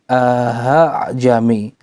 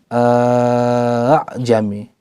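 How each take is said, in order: The two takes are said the same way.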